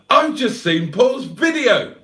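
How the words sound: It is said in an excited, exclamatory tone. The speaker calls it right.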